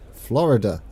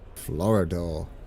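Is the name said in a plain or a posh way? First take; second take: plain; posh. First: The name is said in a plain way. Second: The name is said in a posh way.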